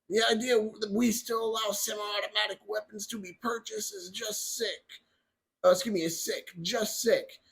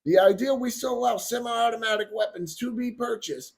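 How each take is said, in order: First: Lightly put-on voice for quoting someone else; Biden voice. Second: Said in the usual way. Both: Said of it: "I have to do my little voice".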